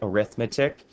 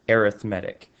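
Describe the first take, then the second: First: It is said in the usual noun pronunciation. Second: It is said in the adjective pronunciation. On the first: "Isn't it arithmetic?" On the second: "when it's used as an adjective in the math world, it's actually arithmetic"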